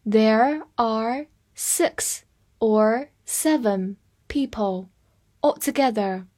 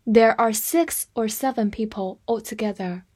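First: Each word set apart by pauses; slow teacher's model for learners; slow reading. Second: Said in the usual way. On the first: Shown as a demonstration. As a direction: read very slowly, one word at a time. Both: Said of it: "来慢读一遍".

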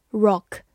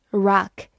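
First: Said in the usual way. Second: "rock" with a wide-open American O; American pronunciation. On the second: Shown as a demonstration. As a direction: open the mouth wider on the vowel of "rock", like "rahk". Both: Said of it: "美式发音O的口型比较大".

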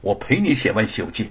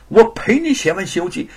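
First: Said in the usual way. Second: 我陪你写完《西游记》 louder, higher, stress on 我, falling end; determined. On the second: Acted. Wife vows to stay with husband, determined stress. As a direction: vow it through clenched resolve. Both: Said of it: "玉凤一咬牙".

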